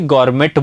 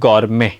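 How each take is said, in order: First: The word ends with a clear t sound. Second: The word ends without a t sound. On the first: The speaker calls it wrong. "बहुत सारे लोग इसे गॉर्मेट बोलते हैं, तो गॉर्मेट नहीं होता" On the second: The speaker calls it right. "उसे बोला जाता है गॉर्मे"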